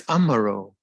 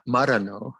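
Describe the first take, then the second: First: Amaro with its opening A; "Amaro" offered as the right name; corrected name Amaro. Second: Marano without an opening A; "Marano" as the mistaken form of the name. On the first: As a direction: say "Amaro", sounding an A before the M. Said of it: "But it's Amaro". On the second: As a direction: say "Marano", starting straight on the M. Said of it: "It's not Maranavati". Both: Shown as a demonstration.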